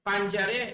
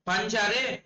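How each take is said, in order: No difference in how they are said.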